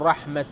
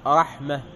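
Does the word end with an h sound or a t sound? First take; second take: t sound; h sound. First: The word ends with a t sound. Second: The word ends with an h sound. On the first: The speaker calls it wrong. "ما تقول رحمة" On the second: The speaker calls it right. "فتقول رحمة إذا وقفت"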